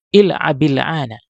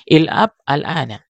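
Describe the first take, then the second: First: The words are linked with an i vowel. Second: The words are said separately with the initial vowel.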